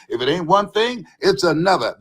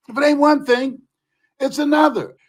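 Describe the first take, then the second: First: Said in the usual way. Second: Raised, emphatic repeat. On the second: Shown as a demonstration. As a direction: say it again with more force.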